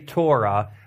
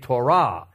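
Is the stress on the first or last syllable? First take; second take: first; last. First: The stress is on the first syllable. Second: The stress is on the last syllable.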